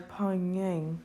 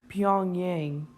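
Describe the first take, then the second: First: The name is said in a mangled way. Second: The name is said clearly and carefully. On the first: The speaker calls it wrong. "I really butchered the name" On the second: The speaker calls it right. "Let me fix that"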